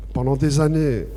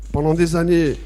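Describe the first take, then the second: No difference in how they are said.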